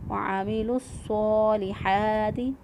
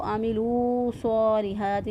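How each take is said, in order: First: The final vowel of amilu is short and joined on. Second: The final vowel of amilu is drawn out long. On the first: The speaker calls it right. "इसकी अदायगी का सही तरीका यही है" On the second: The speaker calls it wrong. "नहीं पढ़ेंगे, ये गलत हो जाएगा"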